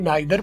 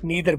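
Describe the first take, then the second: First: The first vowel sounds like 'eye'. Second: The first vowel sounds like 'ee'. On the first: This is the British way of saying it. "British वाले नाइदर बोलते हैं" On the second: This is the American way of saying it. "American वाले नीदर बोलते हैं"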